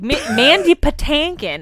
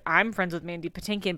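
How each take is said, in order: First: The middle syllable has an 'ah' vowel, 'tan'. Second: The middle syllable has the usual 'tin' vowel.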